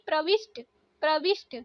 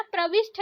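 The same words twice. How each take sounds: First: प्रविष्ट ending in plain hard t; no breath puff closing प्रविष्ट; correct pronunciation. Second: प्रविष्ट ending in aspirated th; breath puff on final t of प्रविष्ट; wrong pronunciation. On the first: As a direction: say प्रविष्ट as "pravisht". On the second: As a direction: say प्रविष्ट as "pravishtha". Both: Shown as a demonstration. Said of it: "ट रहेगा".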